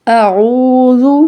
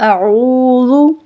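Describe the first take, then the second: No difference in how they are said.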